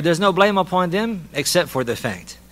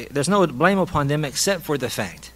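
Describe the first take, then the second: First: Higher, with the line left hanging on "fact"; building suspense. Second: Said in the usual way. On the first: Shown as a demonstration. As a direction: tease the listener, holding back what comes after "except for the fact". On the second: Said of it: "So now what are you expecting?".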